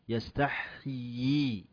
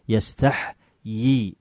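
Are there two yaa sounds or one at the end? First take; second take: two; one. First: Two yaa sounds are pronounced at the end. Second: Only one yaa sound is pronounced at the end. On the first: The speaker calls it right. "يا إين ثنتين" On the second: The speaker calls it wrong. "وليس"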